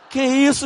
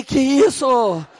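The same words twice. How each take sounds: First: Said in the usual way. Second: Shocked drawn-out question. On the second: Retold or imitated. Pastor stopping his friend from fighting, slow shocked disbelief. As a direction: stretch out a slow, stunned que isso.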